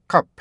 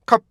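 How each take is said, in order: First: "cup" as stop, gap, released "p"; two-beat rhythm. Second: "cup" cut off as one closed syllable; mistaken single beat. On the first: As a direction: read "cup" in two separate beats. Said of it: "이렇게 두 개로". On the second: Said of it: "이게 두 개의 리듬을 갖고". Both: Shown as a demonstration.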